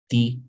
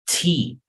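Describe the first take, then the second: First: The T is said softly and weakly. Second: The T is said strongly, with force. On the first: The speaker calls it wrong. "you don't say" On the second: The speaker calls it right. "you need to pronounce it stronger"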